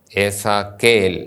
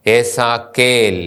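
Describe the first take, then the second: First: Said in the usual way. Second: ഏസാക്കേൽ stretched out very slowly; teacher drawing out each sound; slow demo word. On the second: Shown as a demonstration. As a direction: model ഏസാക്കേൽ for students.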